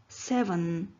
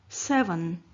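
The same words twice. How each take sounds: No difference in how they are said.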